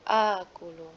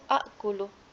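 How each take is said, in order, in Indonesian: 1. Vokal pertama cukup dibaca panjang. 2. Dua bunyi hamzah bertemu di awal. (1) "di a yang kedua itu dibaca panjang saja" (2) "asalnya itu akulu"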